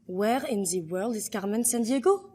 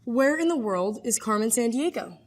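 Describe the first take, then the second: First: French-accented English rising at the end; "the" as "zee" in a French accent. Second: Said in the usual way. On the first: Shown as a demonstration. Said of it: "how you would say it in French".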